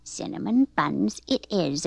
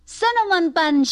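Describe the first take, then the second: First: Lower, measured agreement; easygoing, lower grandma voice; agreeing grandma. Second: Put-on high-pitched boyish call; mild storybook shout; eager shout. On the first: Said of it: "agreed Grandma". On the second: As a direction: call it out like an excited little boy. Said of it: "shouted Mike". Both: A narrator's reading.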